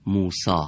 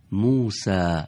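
First: موسی said the Persian way, ending in a long a; plain everyday Persian موسی, musa; Persian pronunciation. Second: موسی in an Arabic accent, ending in a short bright a, musæ. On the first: (تلفظ فارسی موسی) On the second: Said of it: "لهجهٔ عرب بگیم". (موسی با لهجهٔ عربی) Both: Shown as a demonstration.

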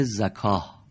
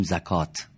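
First: زکاه said slowly with a final h, zakah; drawn-out Arabic زکاه, no final t; Arabic form. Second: زکات said quickly with a final t, zakat; the everyday Persian زکات; Persian form. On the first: (تلفظ عربی زکاه) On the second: (تلفظ فارسی زکات) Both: Shown as a demonstration.

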